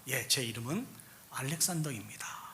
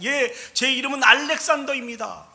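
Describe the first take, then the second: First: It is said in a small, quiet voice. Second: It is said in a loud, frightened voice. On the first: The speaker is timid. "이렇게 아주 작은 소리로 대답을 했어요" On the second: The speaker is terrified. "겁에 질려 두려움에 큰 소리로 얘기했습니다"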